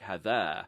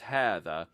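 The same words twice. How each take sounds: First: The first vowel is short. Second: The first vowel is long. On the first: The speaker calls it wrong. "looks like" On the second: The speaker calls it right. "but it's"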